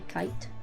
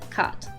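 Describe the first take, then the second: First: The word is said in a standard, carefully enunciated way. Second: The word is said in an Appalachian way. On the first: "the way you're supposed to, air quotes, enunciate it" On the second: "the Appalachian form"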